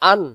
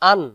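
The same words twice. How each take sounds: The two takes are said the same way.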